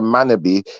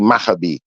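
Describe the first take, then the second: First: The second consonant is an n sound. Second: The second consonant is an h sound. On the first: This is how people usually say the name. The speaker calls it wrong. "when we're saying Manabi" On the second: This is the name's real form. The speaker calls it right. "it's really Mahabi"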